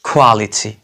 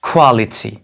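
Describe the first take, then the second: Both takes have the same delivery.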